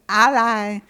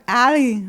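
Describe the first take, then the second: First: It sounds like the start of alliance. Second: It sounds like the word alley. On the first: "as in alliance" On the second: "like bowling alley"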